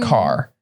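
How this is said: It is said in a generic American accent. "if you went generic American accent, they'd say"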